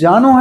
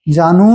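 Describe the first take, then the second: First: The final vowel is a short u sound. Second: The final vowel is a long u sound. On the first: The speaker calls it right. "ये ये जानू है" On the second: The speaker calls it wrong. "जानू ये बड़ाऊ की मात्रा नहीं है, जानू नहीं है"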